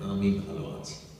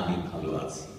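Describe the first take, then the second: First: The voice is pitched a little higher than usual. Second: The voice is pitched at its usual lower level. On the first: "গলাটা যে লেভেলে আছে তার চাইতে একটু ওপরে রাখেন" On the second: "এইভাবে বলতে পারেন"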